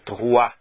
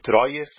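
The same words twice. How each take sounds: First: The name has its native French pronunciation. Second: The name is sounded out letter by letter. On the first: The speaker calls it right. "me corrigiu. É Troyes" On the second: The speaker calls it wrong. "muitos leem Troyes, mas não é assim que se fala em francês"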